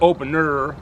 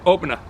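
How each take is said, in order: First: "opener" with a heavy, drawn-out r at the end; pronounced final r. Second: "opener" ending in an open "ah", no r; Boston dropped r. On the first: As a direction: overdo the last r in "opener", like "open-errr". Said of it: "Instead of opener". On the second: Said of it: "we say opener". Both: Shown as a demonstration.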